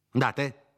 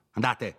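First: Andate pushed up high and harder; higher, louder dismissal. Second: Dismissing him. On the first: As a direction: shoo him out, pitch rising. ("andate" più acuto e deciso) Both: Acted. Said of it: "sempre gridando".

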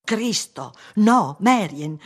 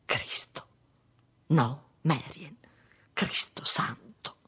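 First: High, loud and drawn out; loud, slow protest; shocked outcry. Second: Whispered, slow cry of shock; stunned, breath-only oath; hushed exclamation. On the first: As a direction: cry out in dismay. Same exclamation repeated aloud in quarrel. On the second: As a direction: exclaim under your breath. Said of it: "esclamò". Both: A narrator's reading.

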